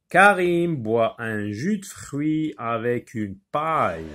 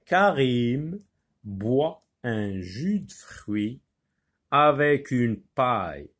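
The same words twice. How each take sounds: First: Said in the usual way. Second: Slow, syllable by syllable; slow articulated reading. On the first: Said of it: "Il faut lire avec expression". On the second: Shown as a demonstration. Teacher modelling careful reading for pupils, slow and articulated. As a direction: stretch each word out so the class can follow. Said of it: "Il faut lire avec expression, avec articulation".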